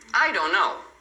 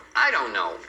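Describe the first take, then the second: First: The final T of don't is dropped. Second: The same.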